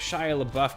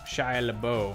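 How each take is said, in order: First: The surname has a plain English pronunciation. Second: The surname has a French-style pronunciation. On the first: The speaker calls it wrong. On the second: The speaker calls it right.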